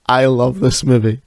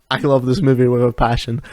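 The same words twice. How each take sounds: First: This pushed out louder than the rest; stress on this. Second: Love carries the weight, passion follows; stress on love. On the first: Telling listeners about a favourite film, louder on this. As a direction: lean on the word this, loud and firm. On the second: Telling listeners about a favourite film, stress on love. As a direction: lean on love, sincere and loud. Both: Real, not acted.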